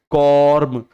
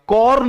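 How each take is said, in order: First: कॉर्म closing firmly on an M sound; corrected word ending. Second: कॉर्न ending in an N sound, high falling pitch; wrong word ending. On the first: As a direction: say कॉर्म with a final M, lips shut. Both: Shown as a demonstration. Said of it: "कॉर्न नहीं".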